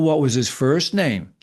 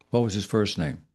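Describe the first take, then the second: First: It is asked in a pointed, challenging tone. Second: It is asked in a calm, measured tone. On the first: The asker thinks he has caught her in a lie. "what he was saying in his mind, ... you hear in arguments" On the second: The question is asked as a neutral inquiry. "His tone was, ... Deliberative"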